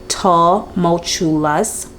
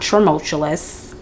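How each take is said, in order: First: The word is said without an R sound. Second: The word is said with an extra R sound. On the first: The speaker calls it right. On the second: The speaker calls it wrong.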